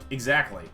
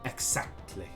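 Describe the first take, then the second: First: Short, with light emphasis on the second syllable. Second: One syllable is drawn out long. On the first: This is how an American speaker says it. "in American English, would be like exactly. It, there's a little emphasis on the second one" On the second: This is how a Swedish speaker says it. "he would always say exactly, just like that. Like there's that long"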